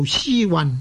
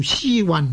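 First: The second syllable carries the low departing tone. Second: The second syllable carries the low departing tone.

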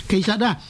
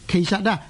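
Both takes have the same delivery.

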